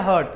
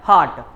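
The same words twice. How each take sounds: First: हर्ट said short, like hurt; wrong pronunciation. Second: हार्ट with a long "aa", haart; real pronunciation. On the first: Teacher imitating students' wrong हर्ट, short "u". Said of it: "गलत pronunciation करते हैं". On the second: Teacher giving students the real हार्ट, long "aa". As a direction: stretch the vowel in हार्ट, haart. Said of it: "तो real pronunciation क्या हो गया". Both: Shown as a demonstration.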